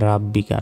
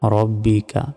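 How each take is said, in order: First: The first vowel is an open a. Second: The first vowel is a rounded o. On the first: The speaker calls it wrong. "অনেকে বলি যে রাব্বিকা, রাব্বিকা নয়" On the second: The speaker calls it right.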